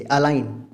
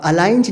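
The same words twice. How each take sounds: First: "अलाइन" ending on N; correct pronunciation. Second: "अलाइंज" with a J after N; wrong pronunciation. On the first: Teacher showing the silent G, correctly pronounced. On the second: Teacher showing how not to say it, mispronounced. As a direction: sound the G ending "अलाइंज". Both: Shown as a demonstration. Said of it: "नहीं कहते इसे".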